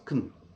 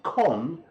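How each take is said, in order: First: The syllable has a reduced schwa vowel. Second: The syllable has a full, clear vowel. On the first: "the good old schwa comes in and it becomes kun" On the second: "it is impossible to say con quickly"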